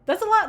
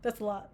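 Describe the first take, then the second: First: High exclaim. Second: Quiet aside. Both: Real, not acted. Repeated line, varied delivery.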